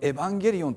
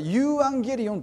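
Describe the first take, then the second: First: The word begins with an 'ev' sound. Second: The word begins with a 'yu' sound. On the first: This is the modern Greek reading. "現代ギリシャ語では" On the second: This is the usual traditional reading. "通常から"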